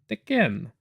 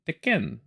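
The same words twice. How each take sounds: First: The name is said with a French Canadian accent. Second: The name is said with a French Canadian accent.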